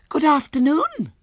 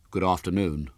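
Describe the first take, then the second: First: Put-on very high, loud, prim child; prim little girl. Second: Put-on understated, hollow boy's greeting. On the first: Little girl greets William, prim and very high. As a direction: greet primly in a tiny girl's squeal. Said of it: "said Violet Elizabeth primly". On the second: Horrified boy returns the girl's greeting, mildly hollow. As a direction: answer hollowly, with no eagerness. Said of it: "said William in a hollow voice". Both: A narrator's reading.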